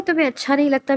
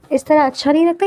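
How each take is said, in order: First: Pointed question, pitch rising onto تمہیں; stress on تمہیں. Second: Said in the usual way. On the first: A narrator's reading. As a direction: raise the pitch on تمہیں to contrast it. Stresses the personal half of question.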